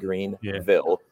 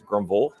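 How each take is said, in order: First: It is said in a standard, careful accent. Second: It is said in a local South Carolina accent.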